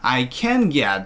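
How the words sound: 'Can' is loud and stressed, above 'I'. It sounds like the speaker cannot get it. The speaker calls it wrong. "이 친구는 I can get 이러죠"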